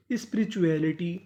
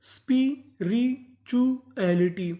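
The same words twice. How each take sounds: First: Said in the usual way. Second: Very slow, syllable by syllable, spirituality; teacher stretching spirituality syllable by syllable; slow spelled-out reading. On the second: Shown as a demonstration. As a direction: draw out spirituality slowly for the class. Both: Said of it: "तो पूरी meaning क्या बनी?".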